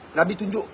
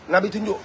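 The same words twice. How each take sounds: The two takes are said the same way.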